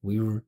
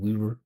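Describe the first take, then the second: First: The two words blur into one continuous vibration. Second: The two words blur into one continuous vibration.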